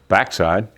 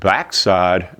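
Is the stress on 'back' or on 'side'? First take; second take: back; side. First: It is said as one word, stressing 'back'. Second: It is said as two words, stressing 'side'. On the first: It refers to a person's buttocks. The speaker calls it wrong. "not backside" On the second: It refers to the back part of the sawmill. The speaker calls it right. "Notice I said backside, because this is the back of the sawmill"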